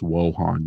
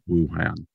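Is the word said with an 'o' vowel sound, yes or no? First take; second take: yes; no. First: The word is said with an 'o' vowel sound. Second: The word is said without an 'o' vowel sound. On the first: The speaker calls it right. "You're supposed to say it with an O" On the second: The speaker calls it wrong. "not Wuhan"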